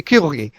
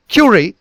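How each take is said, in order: First: Curie with a soft French r. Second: Curie with an English r; English-sounding Curie. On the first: Teacher corrects to the French form. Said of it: "but it should be Curie". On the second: Teacher shows the misheard form. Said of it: "sounds like Curie". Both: Shown as a demonstration.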